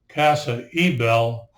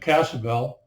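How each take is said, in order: First: The Y syllable is pronounced: Casa-Ee-bel. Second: The Y syllable is silent: Casa-bel. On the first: This is the newer, non-original way of saying it. "is not the original pronunciation" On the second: This is how the locals originally said it. "I pronounce it Casabel because ... all of the locals called it Casabel"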